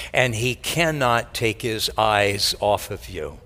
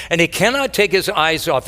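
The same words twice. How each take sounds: First: Tender. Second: Emphatic. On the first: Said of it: "repeated with new force". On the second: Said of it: "repeated line". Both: Shown as a demonstration.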